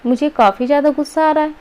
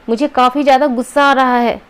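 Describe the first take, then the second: First: It is said flatly, without any emotion. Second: It is said with a clearly angry emotion. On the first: The speaker calls it wrong. "क्या हम ऐसे बोलते हैं" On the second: The speaker calls it right. "आपने तुरंत समझ लिया, अच्छा ये नाराज़ है"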